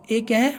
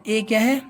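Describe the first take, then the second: No difference in how they are said.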